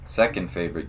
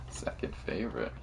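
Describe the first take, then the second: First: Said in the usual way. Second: "Second favorite." breathed through a laugh, unvoiced; laughing whisper. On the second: Real, not acted.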